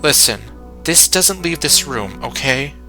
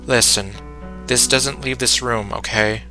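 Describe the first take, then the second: First: The voice varies in pitch and sounds natural. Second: The voice stays flat, monotone and serious.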